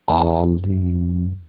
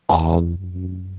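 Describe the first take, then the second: Both takes have the same delivery.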